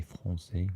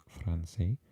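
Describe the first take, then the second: First: "français" with the R rolled in the throat; French R. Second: "français" without the throaty French R; non-French R. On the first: Explaining Breton sounds, "français" with a French R. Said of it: "trill the R's like they do in French". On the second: Showing what French is not, "français" without its throaty R. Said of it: "So it's the R sound". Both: Shown as a demonstration.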